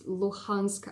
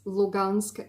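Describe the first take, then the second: First: The name is said with the Ukrainian pronunciation. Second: The name is said with the Russian pronunciation. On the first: "I believe, in the Ukrainian pronunciation" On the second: "in the Russian pronunciation"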